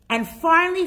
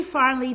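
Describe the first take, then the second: First: "finally" punched high and loud; stressed finally. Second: Said in the usual way. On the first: Real, not acted. Emphatic repeat of finally.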